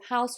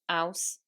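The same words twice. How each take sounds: First: The word begins with an h sound. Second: The word begins without an h sound.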